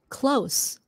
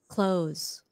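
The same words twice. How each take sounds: First: The word ends with a hissing S sound. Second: The word ends with a buzzing Z sound. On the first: Being near. "That's an S sound" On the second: To shut something. "Close is a Z sound at the end"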